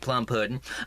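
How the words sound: It is said in a Southern accent.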